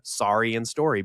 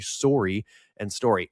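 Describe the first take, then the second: First: It is said in an American accent. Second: It is said in a Canadian accent.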